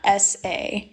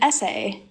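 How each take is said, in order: First: It is said as two separate letters. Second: It is said as one ordinary word. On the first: It refers to an acronym. "The acronym. That is how I would say that" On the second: It refers to a written paper. "something that I write, like a paper, I would call that an essay"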